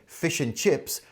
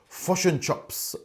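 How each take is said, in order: First: Said in a neutral accent with a clear 'chips' vowel. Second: Said in a New Zealand accent, 'chips' sounding like 'chops'. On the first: "They were really saying fish and chips" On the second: "My friend from New Zealand um, used to make me laugh when they said"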